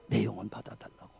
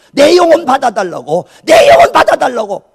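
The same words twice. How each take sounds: First: Very soft, low prayer; subdued dying plea. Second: Loud, high, insistent plea; desperate pleading prayer. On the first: Retelling a dying martyr's prayer, hushed low plea. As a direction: let the plea drop low and quiet. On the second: Retelling a first prayer to God, desperate loud plea. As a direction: cry it out to God, raised and urgent. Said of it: "몸부림치며 기도한 것이". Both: Retold or imitated.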